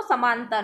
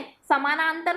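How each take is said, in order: First: "समांतर", missing its middle "ना"; slurred, syllable dropped. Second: Said in the usual way. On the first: Shown as a demonstration. Teacher demonstrates slurring, "समांतर" with "ना" left out. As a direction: drop a syllable to make "समांतर". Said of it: "अस्पष्ट उच्चारण यानी slurring होता है". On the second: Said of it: "किसी एक अक्षर को उच्चारित नहीं करता है".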